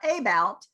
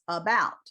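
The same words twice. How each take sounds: First: The stress is on the first syllable. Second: The stress is on the second syllable. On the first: The speaker calls it wrong. "It's not about" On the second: The speaker calls it right. "second syllable is the one that's stressed"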